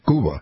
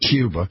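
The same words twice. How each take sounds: First: It is said with a Spanish pronunciation. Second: It is said with an English pronunciation. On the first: This is how the locals name their country. "that's what those people call their country, right?" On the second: This is not how the locals name their country. "They don't say Cuba"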